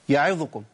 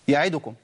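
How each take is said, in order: The two takes are said the same way.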